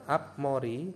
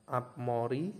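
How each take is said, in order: No difference in how they are said.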